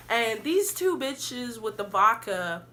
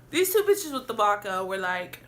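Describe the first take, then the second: First: Tipsy. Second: Said in the usual way. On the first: Real, not acted. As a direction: talk a little tipsy, slowed down. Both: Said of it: "I'm feeling it, y'all".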